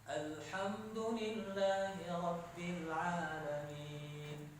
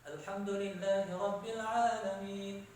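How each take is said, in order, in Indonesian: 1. Dibaca dengan tempo lambat dan teratur. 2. Dibaca dengan tempo yang lebih cepat. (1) "Kalau tartil kan" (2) "tadwir, lebih cepat dari tartil"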